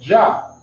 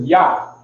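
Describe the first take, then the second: First: The name begins with a J sound. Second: The name begins with a Y sound. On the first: The speaker calls it wrong. "because of the English, they say Jah" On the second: The speaker calls it right. "the name is Yah"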